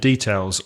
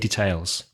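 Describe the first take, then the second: First: It has the usual British stress pattern. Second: It has the usual American stress pattern. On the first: "The same" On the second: "in American English they would say details"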